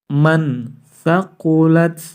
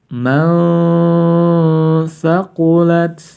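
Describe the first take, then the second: First: The n is pronounced clearly, without a nasal hum. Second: The n is blurred into a held nasal hum. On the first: The speaker calls it wrong. "Tidak boleh dibaca jelas" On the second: The speaker calls it right. "harus dibaca samar-samar sebanyak dua sampai tiga harokat"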